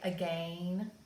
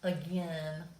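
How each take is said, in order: First: The word is said in a British way. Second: The word is said in a Southern American way. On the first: "In England, they might say again" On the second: "in the South, especially, we say again"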